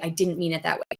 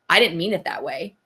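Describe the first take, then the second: First: It is said in a sincere, apologetic tone. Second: It is said in a sneering, defensive tone.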